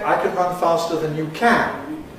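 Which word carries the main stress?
can. The main stress falls on the final can. The speaker calls it wrong.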